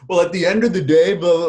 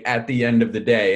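First: A bit higher, quicker, hammed-up cliché; lightly mocking contestant voice; mock reality contestant. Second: Said in the usual way. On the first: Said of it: "and now they all say". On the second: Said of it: "was the first one to say".

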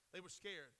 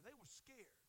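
First: Said in the usual way. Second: Hushed. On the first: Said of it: "They were troubled". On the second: Shown as a demonstration. Preacher to congregation, sudden hushed voice. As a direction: let it fall quiet, letting fear sink in. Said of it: "They cried out for fear".

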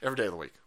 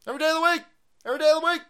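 First: Said in the usual way. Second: Much higher, playful lilt; high sing-song. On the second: Shown as a demonstration. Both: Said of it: "Fuck it, Putin every day".

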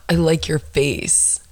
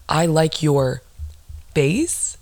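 First: Slow mock compliment; imitated mumbler. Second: "face" set apart after a pause, rising as a question; pause, then lift "face" into a disbelieving question; incredulous echo. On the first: Woman quoting a stranger's compliment, slow mock mumbler. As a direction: mimic a guy's slow, drawn-out compliment. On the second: Retold or imitated. Woman scorning a stranger's compliment, incredulous echo. Repeats his line in disbelief.

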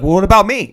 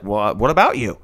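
First: Louder mock plea; put-upon girlfriend, voiced louder; imitated indignant girlfriend. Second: Low, offhand mock reply; imitated indifferent boyfriend. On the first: Girlfriend asking climber where she fits, indignant imitation. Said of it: "And she's like". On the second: Climber brushing off girlfriend's question, indifferent imitation. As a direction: toss it back low, unbothered. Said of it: "He's like".

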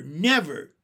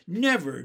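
First: The second "never" louder still, falling hard; emphatic never. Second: "Never" said firmly, a touch louder, falling; emphatic never. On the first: Henry to Jessie, vowing to keep Benny, a louder final "never". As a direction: hit the repeated "never" harder. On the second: Henry to Jessie, vowing to keep Benny, a firm "Never". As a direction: stamp down a first "Never". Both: Acted.

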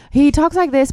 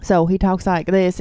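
First: High-pitched imitation of a reality-show character; Joe Exotic. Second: Said in the usual way. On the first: Shown as a demonstration. Cohost showing listeners how the tiger man talks, high-pitched impression. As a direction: pitch it up to mimic him.

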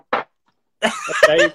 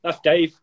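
First: Much higher, louder, squeaky and teasing; teasing falsetto squeak; mock squeal. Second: Said in the usual way. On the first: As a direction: squeak the name out in jest. Repeats name in mocking squeal.

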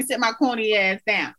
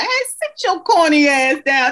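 First: Said in the usual way. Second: Higher husband scolding her, hammed up; mock-exasperated quote of husband; husband's put-down. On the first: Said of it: "he tell me". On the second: Husband telling his wife to sit down, hammed-up put-down. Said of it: "he was like".

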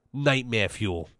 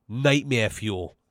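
Both takes have the same delivery.

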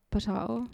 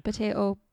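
First: POTATO with an "ah" in the middle; alternative pronunciation. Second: POTATO with an "ay" in the middle; usual pronunciation. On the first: Shrugging off a podcast-or-talk-show quibble, POTATO said puh-TAH-toh. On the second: Shrugging off a podcast-or-talk-show quibble, POTATO said puh-TAY-toh. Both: Shown as a demonstration. Idiom contrasting two pronunciations.

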